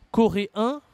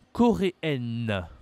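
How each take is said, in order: First: CORÉEN high and loud, nasal "en", silent n; rising "coréen", no n heard; masculine pronunciation. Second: CORÉENNE slow, ending "-enn" with sounded n; falling "coréenne", hold the final n; feminine pronunciation. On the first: Teacher demonstrating to a learner, masculine pronunciation. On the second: Teacher demonstrating to a learner, feminine pronunciation. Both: Shown as a demonstration. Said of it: "La prononciation est différente".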